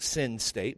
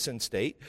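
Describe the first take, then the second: First: "sin state" heard as the word sin; sounds like SIN. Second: "sin state" said as "sense state", as in senses; meant as sense-state. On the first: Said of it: "it sounds like sin state". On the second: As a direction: make "sin state" sound like sense, not sinning. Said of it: "it sounds like sin state, but it's". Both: Shown as a demonstration.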